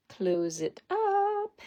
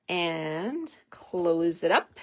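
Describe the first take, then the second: First: Much higher, slow, playful sing-song. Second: Said in the usual way. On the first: Pretend. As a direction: stretch it out high and playful. Sing-song repeat of her instruction.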